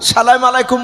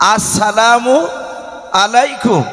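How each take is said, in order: First: The greeting starts directly with 'salam'. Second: The greeting starts with 'as-' before 'salamu'. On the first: The speaker calls it wrong. "সালাম আলাইকুম বলবেন না" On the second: The speaker calls it right. "বলবেন আসসালামু আলাইকুম"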